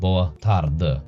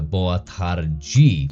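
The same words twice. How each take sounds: First: The final vowel of tarde is reduced to a schwa. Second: Tarde ends in a clear e, with d like j. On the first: This is the European Portuguese pronunciation. "the last syllable, uh, is dropped to a schwa" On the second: This is the Brazilian Portuguese pronunciation. "the E at the end actually is pronounced as E ... the D goes to a J"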